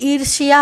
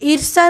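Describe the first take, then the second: First: A y sound follows the sh. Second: There is no y sound after the sh. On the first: The speaker calls it right. "बल्कि ईर्ष्या होती है" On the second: The speaker calls it wrong. "ईर्षा नहीं होता"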